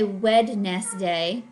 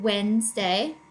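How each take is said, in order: First: The d in the middle is clearly pronounced. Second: The d in the middle is silent. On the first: The speaker calls it wrong. "We don't say Wednesday" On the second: The speaker calls it right. "it doesn't sound like we hear the D"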